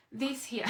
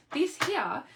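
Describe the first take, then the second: First: Said in the usual way. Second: Higher, louder salesy pitch; infomercial voice. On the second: Acted. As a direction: sell it like a TV ad host. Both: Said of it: "I'm gonna sound like an infomercial".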